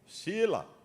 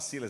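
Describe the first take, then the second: First: The name ends without the s sound. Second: The name ends with a clear s sound. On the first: "ele cortava o S" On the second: "Ele não falava Silas"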